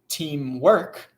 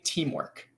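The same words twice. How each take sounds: First: The stress is on the second syllable. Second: The stress is on the first syllable. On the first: The speaker calls it wrong. "I'm not saying teamwork" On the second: The speaker calls it right. "it's emphasized in the first part of the word"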